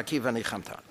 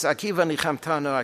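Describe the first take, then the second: First: Soft echo. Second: Said in the usual way. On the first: Shown as a demonstration.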